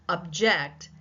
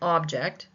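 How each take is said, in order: First: The stress is on the second syllable. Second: The stress is on the first syllable. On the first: It is a verb meaning to protest. "the second syllable becomes the primary stress syllable" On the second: It is a noun naming a thing. "I am using the primary stress on the first syllable"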